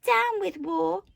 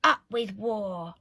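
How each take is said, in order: First: High, slow, loud hooted slogan; drawn-out high protest hoot. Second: Slow, mildly shouted war chant; understated storybook shout. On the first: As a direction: hoot it like a rallying cry. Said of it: "and he hooted". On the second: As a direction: chant it slowly as a slogan. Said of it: "And they shouted". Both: A narrator's reading.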